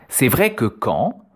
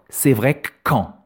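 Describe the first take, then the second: First: The vowel of 'que' is pronounced fully. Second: The vowel of 'que' is dropped, doubling the k.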